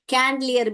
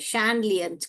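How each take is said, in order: First: The word begins with a k sound. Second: The word begins with a sh sound. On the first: The speaker calls it wrong. "कैंडलियर भी नहीं है" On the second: The speaker calls it right. "सही pronunciation सैंड सैंडलियर है"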